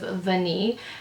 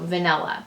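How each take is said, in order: First: It is said the French way, without a final vowel. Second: It is said the English way, ending in -ah. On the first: The speaker calls it right. "pronounced the correct way" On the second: The speaker calls it wrong. "I often call this fragrance Tom Ford Tobacco Vanilla because I do not speak French"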